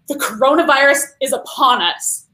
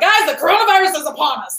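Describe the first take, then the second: First: It is said in a frightening, alarming tone. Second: It is said in a casual, lighthearted tone.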